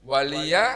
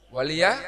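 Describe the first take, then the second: Both takes have the same delivery.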